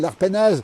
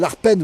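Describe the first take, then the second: First: The name ends with a pronounced final syllable. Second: The name ends without its final syllable.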